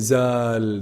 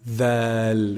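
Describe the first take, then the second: First: It begins with a 'z' sound, tongue inside. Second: It begins with a 'th' sound, tongue out. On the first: The speaker calls it wrong. "they say zal, they keep the tongue inside" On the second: The speaker calls it right. "you see the tip of my tongue is actually sticking out"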